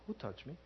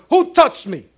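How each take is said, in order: First: It is said quietly, at normal volume. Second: It is said loudly, almost shouted.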